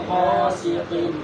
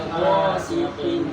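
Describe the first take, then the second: Both takes have the same delivery.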